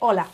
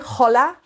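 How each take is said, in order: First: The initial H is silent. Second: The initial H is pronounced aloud. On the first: The speaker calls it right. "we say hola. We drop the H" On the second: The speaker calls it wrong. "we never say hola"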